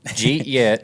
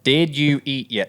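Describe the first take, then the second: First: The words are squeezed into two syllables. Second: Each of the four words is said separately. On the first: "Condensed to two syllables" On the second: "That's four freaking words"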